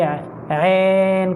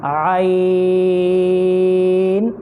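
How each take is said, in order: First: عین with vowel flattened to long eh; majhool, wrong ain. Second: عین from the throat, open a gliding into long ee; correct ain. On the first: Teacher shows children's mistake, majhool vowel. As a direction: say عین like ehn. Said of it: "مجهول کر کے". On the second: Teacher corrects the children, clear stretched ain. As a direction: hold عین as a-eeen on one note. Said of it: "ایسا نہیں پڑھیں گے اس کو". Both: Shown as a demonstration.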